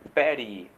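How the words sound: The t is flapped, sounding like a soft r. "com som de R"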